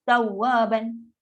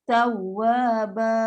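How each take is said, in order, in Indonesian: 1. Kata itu berakhir dengan bunyi n. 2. Kata itu berakhir dengan vokal panjang. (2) "Mesti tawaba. Dua harakat"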